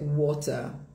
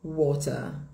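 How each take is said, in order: First: It is said in a British accent. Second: The same.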